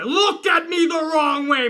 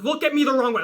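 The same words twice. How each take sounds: First: Higher, slower, drawn-out angry challenge; hammed-up pissed-off threat, escalating; mock wrestler rage, stretched out; Goldberging out. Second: Mildly menacing challenge; a first warning, still fairly held back; acted tough-guy irritation; pissed off. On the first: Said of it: "I'm Goldberging out". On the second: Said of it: "I'm in a pissed off mood".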